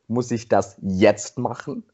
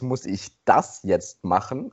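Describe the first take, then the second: First: The word jetzt is stressed. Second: The word das is stressed. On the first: It asks whether it must be done right now. "Die nächste Betonung ist" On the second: It asks whether something else should be done instead. "Die nächste Betonung ist"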